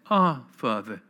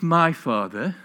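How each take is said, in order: First: "Our Father" with weight on "Our", then falling; stress on "Our". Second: "my Father" with weight on "my", pitch rising; stress on "my". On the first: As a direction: land on "Our", let "Father" drop away. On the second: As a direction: lean on "my", leave it hanging. Contrasts my with our Father. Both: Shown as a demonstration.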